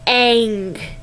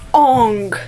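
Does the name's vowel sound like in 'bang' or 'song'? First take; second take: bang; song. First: The vowel sounds like the one in 'bang'. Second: The vowel sounds like the one in 'song'. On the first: The speaker calls it right. "It is Aang" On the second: The speaker calls it wrong. "it is not Ong"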